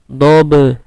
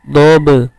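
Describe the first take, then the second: Both takes have the same delivery.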